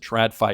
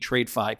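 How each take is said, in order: First: The first syllable is said as trad. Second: The first syllable is said as trade. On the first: The speaker calls it wrong. "I don't know why they pronounce it TradFi" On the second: The speaker calls it right. "It should be TradeFi"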